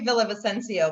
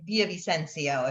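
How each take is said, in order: First: The name is said with English sounds. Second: The name is said with Spanish sounds. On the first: "there's like the English way" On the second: "the Peruvian way ... if you're saying it correctly"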